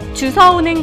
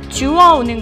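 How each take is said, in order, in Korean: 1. 단어에 모음 앞에 s 소리가 있어요. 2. 단어에 w 반모음이 있고 s 소리는 없어요. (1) "잘못 얘기하고 있진 않으신가요" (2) "주워오는 거죠"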